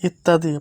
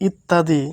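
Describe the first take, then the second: No difference in how they are said.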